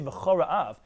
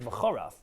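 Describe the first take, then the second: First: The syllables are said slowly and kept distinct. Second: The syllables are said quickly and run together. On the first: The speaker calls it right. "when you say v'chora'av" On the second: The speaker calls it wrong. "if you say it very quickly, it sounds like v'chorav"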